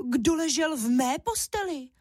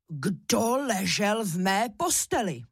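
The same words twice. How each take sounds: First: Higher cross mother-bear voice; mama bear scolding about her bed; mother bear, annoyed and sharp; angry mama bear. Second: Slow, heavy bear voice, only mildly roared; big bear father demanding an answer; understated growl of a papa bear. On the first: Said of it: "zlobila se Máša hlasem medvědí maminky". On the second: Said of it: "zařval medvědí tatínek Ivan silným medvědím hlasem". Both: A narrator's reading.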